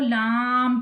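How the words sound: The sound goes through the nose. The speaker calls it wrong. "नाक में आवाज ले जाते हैं।"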